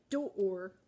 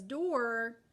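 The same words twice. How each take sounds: First: Door dragged out as doooor, slow and silly; silly stretched sound. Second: Said in the usual way. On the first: Shown as a demonstration. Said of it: "That's silly". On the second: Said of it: "we just say door".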